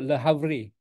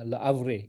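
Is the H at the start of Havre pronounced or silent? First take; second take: pronounced; silent. First: The H at the start is pronounced. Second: The H at the start is silent. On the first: The speaker calls it wrong. "kita tak boleh sebut Le Havre" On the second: The speaker calls it right. "dia silent H lah ... macam tu lah"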